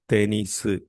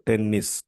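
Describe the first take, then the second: First: It is said with three syllables, ending in su. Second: It is said as the two-syllable English word. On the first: "changed according to the Japanese pronunciation" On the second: "This is an English word"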